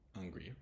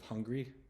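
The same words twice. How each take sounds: First: The word starts with a weak or missing H. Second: The word starts with a clear H sound. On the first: "you might not hear the H actually pronounced" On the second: "instead of hungry"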